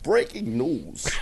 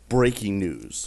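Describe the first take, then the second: First: It is said in a newscaster voice. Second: It is said in his ordinary voice.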